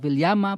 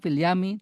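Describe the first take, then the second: First: It ends with an added a vowel after m. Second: It ends with an added i vowel after m.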